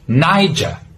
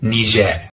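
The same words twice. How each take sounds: First: A British accent with an open final R. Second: A French-influenced local pronunciation. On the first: "if you're from the UK, you would pronounce it with an open R sound" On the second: "from the local language, which is heavily influenced by the French"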